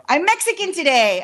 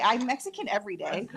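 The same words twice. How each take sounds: First: Loud, high, proud announcement; joyful loud boast; excited shout. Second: Said in the usual way. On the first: Acted. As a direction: belt it out like a proud declaration. Joking exclaim, then repeated plainly.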